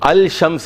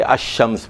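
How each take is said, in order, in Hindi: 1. अल का l साफ़ बोला जाता है। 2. l दोहरे sh में मिल जाता है। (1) "अल शम्स नहीं पढ़ेंगे" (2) "अश-शम्स पढ़ेंगे"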